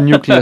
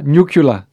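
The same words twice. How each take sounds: First: The word is said in the standard way. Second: The word is said in a nonstandard Texan-style way. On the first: The speaker calls it right. "i stedet for nuclear" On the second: The speaker calls it wrong. "når du siger nuclear"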